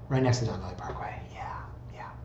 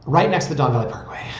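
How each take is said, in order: First: Confiding whisper, quick; hushed repeat. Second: Said in the usual way. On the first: Pretend. Host admitting the house sits by the parkway, whispered. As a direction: whisper it like an awkward secret.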